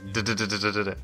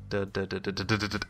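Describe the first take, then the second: First: The syllables keep a steady, even rhythm. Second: The syllables get faster each time.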